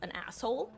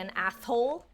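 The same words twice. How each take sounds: First: The s sound is pronounced clearly. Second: The s sound is pronounced with a lisp.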